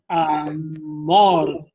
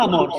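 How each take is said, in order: First: The word is said with strong force and vibration. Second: The word is said flatly, without extra force. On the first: The speaker calls it right. "sino amor. La fuerza que eso tiene, la vibración que eso tiene" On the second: The speaker calls it wrong. "No amor"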